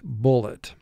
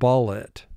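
First: The first vowel is the u of 'put'. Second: The first vowel is the short u of 'cut'. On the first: The speaker calls it right. "U is representing its extra sound" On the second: The speaker calls it wrong. "if this were vowel group 1, as it normally would be, you would pronounce the word bullet"

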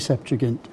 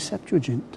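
First: The g is pronounced hard, as in go. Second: The g is pronounced soft, like a j. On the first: "It's not J, it's G" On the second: "Softer and lovely"

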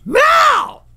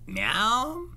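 First: The meow sounds demanding. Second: The meow sounds sad and plaintive.

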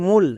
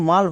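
First: The vowel is a long 'oo' sound. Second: The vowel is a short 'uh' sound. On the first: The speaker calls it wrong. "মূল, একদমই না।" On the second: The speaker calls it right. "এর জন্য মাল হবে।"

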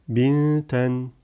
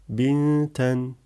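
Both takes have the same delivery.

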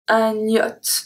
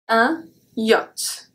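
First: The n sound links into the next word. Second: The n sound stays separate from the next word. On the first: The speaker calls it wrong. "We don't say un yacht, yacht. That would be weird" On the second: The speaker calls it right. "We also don't make the link for this word"

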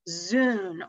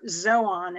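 First: The word has an English-style pronunciation. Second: The word has a Greek-style pronunciation.

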